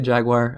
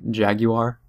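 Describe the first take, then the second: First: It is said with an American pronunciation. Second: It is said with a British pronunciation. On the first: "I say Jaguar" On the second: "like a British commercial"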